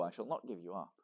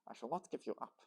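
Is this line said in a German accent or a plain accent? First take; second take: plain; German. First: It is said in the reader's ordinary accent. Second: It is said with a put-on German accent.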